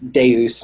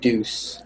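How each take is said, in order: First: The word is said like 'day-us'. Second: The word is said like 'deuce'. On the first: The speaker calls it right. "That's Deus" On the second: The speaker calls it wrong. "not Deuce"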